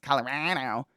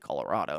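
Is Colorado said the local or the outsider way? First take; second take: local; outsider. First: Colorado is said the local way. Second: Colorado is said the outsider way. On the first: It is how people there say it. The speaker calls it right. "and it's Colorado" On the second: It marks the speaker as not from there. The speaker calls it wrong. "I say Colorado"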